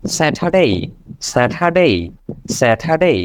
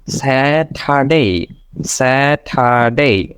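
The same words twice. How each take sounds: First: Saturday quickly as one word, 'satha-day'; faster, joined up. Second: Saturday very slowly as 'saa-tha-day'; slow syllable-by-syllable. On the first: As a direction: run the syllables of Saturday together. (দ্রুত একসাথে 'স্যাঠাডে') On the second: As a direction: stretch each syllable of Saturday apart. (ধীরে ভেঙে ভেঙে 'স্যা-ঠা-ডে') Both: Shown as a demonstration. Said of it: "first".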